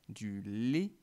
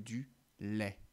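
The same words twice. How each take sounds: First: The final vowel is closed, like é. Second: The final vowel is open, like è. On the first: The speaker calls it wrong. "il m'arrive souvent de dire du lait plutôt que" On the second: The speaker calls it right. "le son est comme dans du lait"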